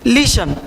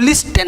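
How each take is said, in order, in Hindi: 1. बीच में t की ध्वनि मौन रहती है। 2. बीच में t की ध्वनि बोली जाती है।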